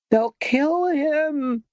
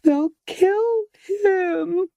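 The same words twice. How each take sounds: First: Much higher, slow drawn-out shriek; high-pitched scream. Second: Even higher, very slow and piercing; unbearably high-pitched. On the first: Esmeralda screams that the mob will kill her lover, piercing high. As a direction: let the words stretch into a piercing wail. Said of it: "screamed Esmeralda in an almost unbearably high-pitched". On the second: Esmeralda repeats her scream about her lover, highest pitch. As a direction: hold the pitch at the very top, near breaking. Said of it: "almost unbearably high-pitched voice". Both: A narrator's reading.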